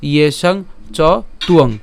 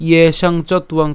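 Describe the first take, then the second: First: ইয়েসাং, চ, then joined তুয়ং; natural word division. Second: Slow ইয়েসাং / চত / উয়ং with t ending চত; broken up. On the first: Teacher gives the proper reading, ইয়েসাং চ তুয়ং. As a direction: keep the t with তুয়ং, leaving চ open. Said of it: "অবশ্যই একসাথে উচ্চারণ করবেন". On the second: Teacher repeats the divided reading, চত and উয়ং separate. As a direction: split after the t of চত, then উয়ং. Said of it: "একটু ভেঙে উচ্চারণ করতে". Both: Shown as a demonstration.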